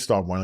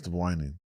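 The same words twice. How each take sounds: First: It is said in a plain, normal voice. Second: It is said in a put-on, imitated voice.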